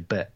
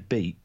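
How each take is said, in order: First: The vowel is short, like in 'bet'. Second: The vowel is long, like in 'beet'. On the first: "you say bet" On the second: "when you say beat"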